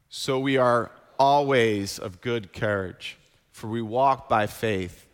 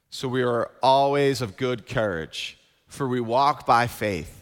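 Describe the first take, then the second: First: The word 'always' gets the stress. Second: The word 'faith' gets the stress. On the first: "we're going to emphasize that word always" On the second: "we're going to emphasize that word faith"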